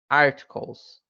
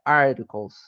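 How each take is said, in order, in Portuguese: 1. O t do meio é um som de t claro. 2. O t do meio é um tepe rápido, parecido com o r.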